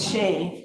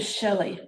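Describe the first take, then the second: First: It is said as one syllable, like Shay. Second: It is said as two syllables, like Shelley. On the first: The speaker calls it right. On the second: The speaker calls it wrong.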